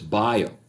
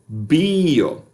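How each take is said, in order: First: It is said with English pronunciation. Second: It is said with classical pronunciation.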